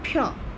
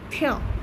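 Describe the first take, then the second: Both takes have the same delivery.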